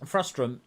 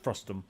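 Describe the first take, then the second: First: An extra r sound follows the t. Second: No r sound follows the t. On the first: The speaker calls it wrong. "Frustrum is not a word" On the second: The speaker calls it right. "It's frustum"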